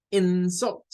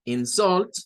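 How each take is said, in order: First: "insult" as the noun, IN-sult; high, careful "insult" with the first syllable strong; stress on first syllable. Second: "Insult" as the verb, in-SULT; high, careful "Insult" with the second syllable strong; stress on second syllable. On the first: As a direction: punch "in-" in "insult", weak ending. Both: Shown as a demonstration. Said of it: "tenemos dos pronunciaciones".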